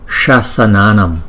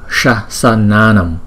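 No difference in how they are said.

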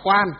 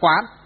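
First: The word is said with a level tone. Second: The word is said with a rising tone. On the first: Looking with the eyes at outer forms. "Khi đọc là quan, quan tức là quan sát đó" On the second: Looking inward with the mind. "Khi đọc là quán. Quán tức là gì? Nhắm mắt lại"

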